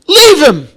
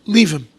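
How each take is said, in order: First: High, loud cry of leave him; a loud raised appeal to hold back; king's plea. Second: Said in the usual way. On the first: Retold or imitated. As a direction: plead it out loud as the king. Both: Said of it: "What does David HaMelech answer?".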